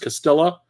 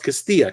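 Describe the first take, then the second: First: The name is said with an English-style pronunciation. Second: The name is said with a Spanish pronunciation. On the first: The speaker calls it wrong. "he was mispronouncing it the whole time" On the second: The speaker calls it right. "no, it's Castilla, castle in Spanish"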